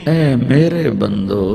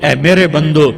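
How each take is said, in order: First: It is said in a warm, loving tone. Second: It is said in a plain, stern tone. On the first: The speaker calls it right. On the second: The speaker calls it wrong.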